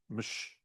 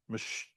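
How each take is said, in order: First: It is one syllable ending in a sh sound. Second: It is one syllable ending in a sh sound.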